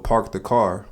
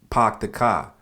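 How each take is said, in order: First: The R sounds are pronounced. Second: The R sounds are dropped.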